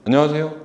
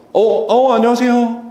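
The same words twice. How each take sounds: First: Said in the usual way. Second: High, cheerful greeting; upbeat welcoming hello; bright voice tone. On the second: Shown as a demonstration. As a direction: greet with a lifted, happy tone. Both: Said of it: "다르잖아요".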